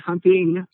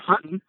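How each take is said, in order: First: The ending is said with a full g sound. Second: The ending is said without the g sound. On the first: "we don't say hunting" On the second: "You dropped the G"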